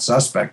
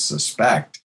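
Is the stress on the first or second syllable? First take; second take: first; second. First: The stress is on the first syllable. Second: The stress is on the second syllable. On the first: It names a person suspected of a crime. The speaker calls it wrong. "they'll call it suspect instead, because that's the first pronunciation" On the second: It means doubtful or not to be trusted. The speaker calls it right. "as we were pronouncing it, is suspect"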